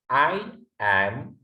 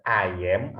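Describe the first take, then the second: First: "I am" as two separate, stretched words; slow "I am" with a gap between; separated pronunciation. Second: "I am" run together as "ayem"; "I am" joined with no gap; linked pronunciation. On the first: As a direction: split "I am" into "ai" and "em". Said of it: "juga I am juga boleh". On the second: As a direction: say "I am" in one go, linked. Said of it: "I am langsung boleh". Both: Shown as a demonstration.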